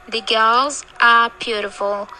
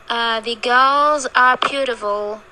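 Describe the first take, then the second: The two takes are said the same way.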